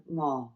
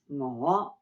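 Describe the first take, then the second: First: "我" low and level; low, flat "我". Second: "我" dipping low and rising; clearly rising "我". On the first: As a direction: hold "我" low with no rise. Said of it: "More of a flat tone". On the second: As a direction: swing "我" up from a low start. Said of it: "but different tones". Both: Shown as a demonstration.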